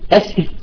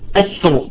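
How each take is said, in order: First: The r is pronounced light and thin. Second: The r is pronounced heavy and thick. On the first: "بعضهم قال ترقق" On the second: "بعضهم قال تفخم الأولى التفخيم"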